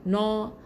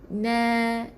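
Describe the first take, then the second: First: The vowel is a rounded o. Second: The vowel is a thin, spread a. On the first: The speaker calls it wrong. "bukan no" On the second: The speaker calls it right. "sengih, supaya huruf tu jadi nipis"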